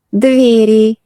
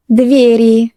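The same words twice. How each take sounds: The two takes are said the same way.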